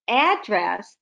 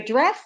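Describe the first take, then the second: First: The stress is on the first syllable. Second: The stress is on the second syllable. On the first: A location. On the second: Speaking to someone.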